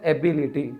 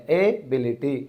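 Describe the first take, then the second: First: Said in the usual way. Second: एबिलिटी with its opening syllable set apart; stress shown by syllables. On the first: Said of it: "syllabus में तोड़ने की आदत रख लो". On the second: Shown as a demonstration. Teacher showing where stress falls, एबिलिटी split after its first syllable. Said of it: "stress अपने first syllabus के बाद में".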